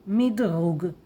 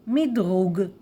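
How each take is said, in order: No difference in how they are said.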